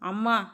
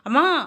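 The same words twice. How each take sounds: First: The word is said calmly and briefly. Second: The word is shouted and drawn out. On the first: An ordinary call to mother for food. "சாதாரணமாக" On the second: An alarmed cry when mother is falling. "நம்மளை அறியாமலேயே நம்ம கத்துவோம்"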